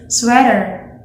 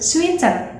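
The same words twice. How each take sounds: First: American-style 'sweater', like 'swedder'; American accent. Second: 'sweater' with EE vowel and clear T; Indonesian accent. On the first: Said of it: "the correct pronunciation of this word in American accent". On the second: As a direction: say 'sweater' like 'sweeter', Indonesian-style. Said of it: "E sound". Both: Shown as a demonstration.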